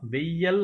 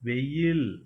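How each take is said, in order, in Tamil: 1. இது 'yal' ஒலியில் முடிகிறது. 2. இது 'yil' ஒலியில் முடிகிறது. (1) "வெய்யல் அப்படின்னு சொல்லக்கூடாது" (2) "வெயில் அப்படின்னு சொல்லணும்"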